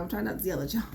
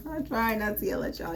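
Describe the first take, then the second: First: Said in the usual way. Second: Said through a real laugh; tickled by her own warning. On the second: Real, not acted. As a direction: laugh while you repeat it. Repeats line, laughing through it.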